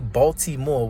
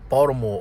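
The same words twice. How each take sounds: First: The word is said with a T sound. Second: The word is said with a D sound. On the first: It follows the standard spelling. "we don't say Baltimore with a T" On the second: The speaker lives here but is not part of the system. "we say Baltimore with a D"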